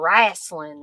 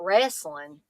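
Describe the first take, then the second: First: It is said with a Southern pronunciation. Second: It is said with a standard pronunciation.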